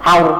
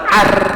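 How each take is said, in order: First: The r is said heavy, mouth full. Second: The r is said thin and light. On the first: The speaker calls it right. "mulut terasa penuh" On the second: The speaker calls it wrong. "maka jangan kita baca ar"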